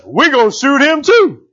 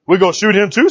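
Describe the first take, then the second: First: Higher, drawn-out retold decree; slow, emphatic declaration. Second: Said in the usual way. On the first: Preacher voices Jehu pursuing the fleeing king, slow and emphatic. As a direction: declare it slowly, word by word. Jehu's decree, dramatised in retelling.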